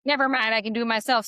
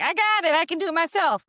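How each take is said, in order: First: Brisk dismissive. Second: Much higher and louder stubborn protest; defiant insistence. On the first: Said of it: "maybe you would be like". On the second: Coach imagining the client rebuffing her husband, high defiant protest. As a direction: insist you can manage alone. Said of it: "would you be like". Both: Retold or imitated.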